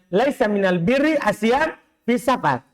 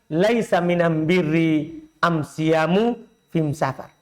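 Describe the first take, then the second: First: The article is pronounced with an l sound. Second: The article is pronounced with an m sound. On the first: This is the standard form of the saying. "Saya dia dengar Nabi bilang" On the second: This is the form used in a regional dialect. "saat dia sampaikan kepada kaumnya"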